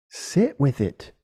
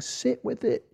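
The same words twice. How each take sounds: First: Slowly, calmly advising; slow and sincere. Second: Much higher and softer, sing-song mockery; mocking hippie advice. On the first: Shown as a demonstration. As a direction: let it sink in, unhurried. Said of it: "Look at it". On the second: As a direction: mimic a dreamy meditation guru. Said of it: "like some, like, hippie meditation thing".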